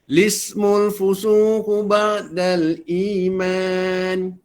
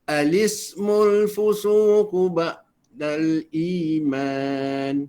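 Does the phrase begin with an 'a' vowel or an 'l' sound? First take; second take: l sound; a vowel. First: It begins directly with an l sound. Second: It begins with an a vowel before l. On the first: "Sama ada kita nak baca lismu" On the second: "ataupun alismu"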